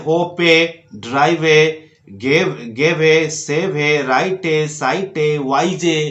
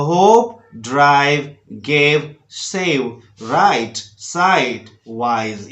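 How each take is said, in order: First: होपे, ड्राइवे, राइटे with an extra "ay" ending; final E sounded. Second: होप, ड्राइव, राइट ending on the consonant; silent final E. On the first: Teacher showing the mistake, final E pronounced as in वाइजे. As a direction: voice the last E as in होपे, word by word. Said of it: "ऐसे नहीं पढ़े". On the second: Teacher modelling correct reading, E silent as in साइट. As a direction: list them separately, no E after होप or वाइज. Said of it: "इस तरह से आपको उच्चारण करना है". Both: Shown as a demonstration.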